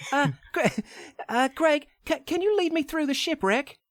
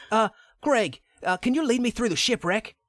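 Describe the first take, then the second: First: Much higher pretend Lara voice, British accent. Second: Higher pretend Lara voice, British accent; a hammed-up British Lara asking nicely. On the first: Redoing Lara asking Greg for help, much higher British voice. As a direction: squeak up into a girlish British Lara. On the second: Lara asks the tour guide Greg for help, higher British voice. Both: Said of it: "I don't know why that's a dude".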